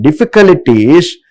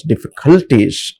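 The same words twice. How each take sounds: First: "difficulties" higher, with the stress put in the wrong place as students do; over-mark the syllables of "difficulties", pitched up; misplaced stress. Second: "difficulties" in the teacher's corrected stress, at usual pitch; corrected word stress. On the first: Teacher showing students' mistake, "difficulties" with raised, misplaced stress. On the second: Teacher telling students what they're supposed to pronounce, corrected stress on "difficulties". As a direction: give "difficulties" as a model pronunciation.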